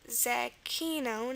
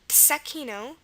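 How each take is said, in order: First: The word begins with a voiced dz sound. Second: The word begins with a voiceless ts sound. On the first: "it could be a Z, like Zecchino" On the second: "also pronounced Tsekino with a T S sound at the beginning"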